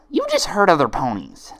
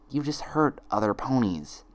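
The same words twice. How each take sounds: First: High loud hammered accusation; high furious friend; loud accusing friend. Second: Twin's accusation. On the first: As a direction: hurl it at her. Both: Acted. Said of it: "Each friend repeated one of her twin's lines".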